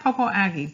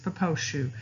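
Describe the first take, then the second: First: The name is read the way it is spelled. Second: The name is said with the local pronunciation. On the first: This is how the written name looks. "It looks like" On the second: This is how the local people say it. "this is how they pronounce it"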